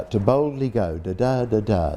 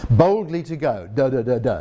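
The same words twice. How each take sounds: First: To boldly go with stress on BOLD and GO, then da da da da tapping the beat; iambic rhythm. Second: Boldly to go with stress on BOLD, the beat falls wrong, da da da da; awkward rhythm. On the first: Lecturer demonstrating to audience the iambic beat of the famous line. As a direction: beat out the iambs, da-DUM, to boldly GO. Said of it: "That's an iambic pentameter". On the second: Lecturer showing audience the wrong word order breaks the rhythm. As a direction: tap out a clumsy, broken beat. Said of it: "That doesn't feel right". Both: Shown as a demonstration.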